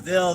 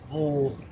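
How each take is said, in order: First: It is said with a clear 'vill' sound. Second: It is said with a reduced 'vull' sound. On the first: This is the usual pronunciation. "instead of Ville" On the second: This is how locals say it. "they say Bull"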